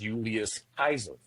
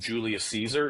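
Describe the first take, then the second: First: The second name begins with a K sound. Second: The second name begins with an S sound. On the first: The speaker calls it right. "The way that it's actually pronounced" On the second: The speaker calls it wrong. "very American, very English"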